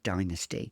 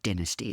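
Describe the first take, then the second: First: It is said with an American pronunciation. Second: It is said with a British pronunciation. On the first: "Americans say it" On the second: "as we say in the U K"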